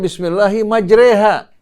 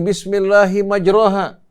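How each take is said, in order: First: The vowel after the r sounds like e. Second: The vowel after the r sounds like a.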